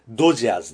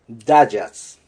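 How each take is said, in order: First: The first syllable has an 'o' vowel. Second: The first syllable has an 'a' vowel. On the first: "日本語では、ドジャーズですけど" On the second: "英語では、ダジャーズ。"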